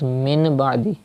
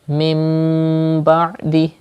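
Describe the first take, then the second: First: The first word ends in a plain n sound. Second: The first word ends in a nasalized m sound. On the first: The speaker calls it wrong. "Don't read as min ba'di" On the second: The speaker calls it right. "Change noon sakin into meme and say mim ba'di"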